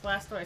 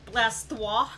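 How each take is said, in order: First: The name is said in a plain English accent. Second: The name is said in a French accent.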